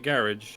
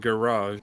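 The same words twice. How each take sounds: First: The word is said in an anglicized way. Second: The word is said in a French-sounding way. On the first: This is how the speaker's own group says it. "we still pronounce it garage" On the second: This is how the listeners say it. "a lot of you guys pronounce it garage"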